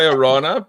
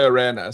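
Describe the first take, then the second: First: The name is said the Australian way. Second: The name is said the American way. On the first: "We we say Orana" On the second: "when I'm in the U S, I say Arena"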